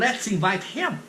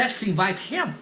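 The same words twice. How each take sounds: First: The words are said separately, with the H kept. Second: The words are said separately, with the H kept.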